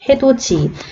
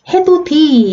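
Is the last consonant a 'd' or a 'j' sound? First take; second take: j; d. First: The last syllable starts with a 'j' sound. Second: The last syllable starts with a 'd' sound. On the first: The speaker calls it right. "어떻게 발음해요?" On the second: The speaker calls it wrong. "디 아니라"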